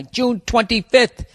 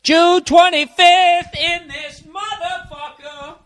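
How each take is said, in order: First: Drawn-out mock searching for the date. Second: High, slow, triumphant sing-song; triumphant announcement. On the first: Shown as a demonstration. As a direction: say it like you're reading it off. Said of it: "Could you hear me looking for the date". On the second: Real, not acted. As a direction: announce the date like a victory.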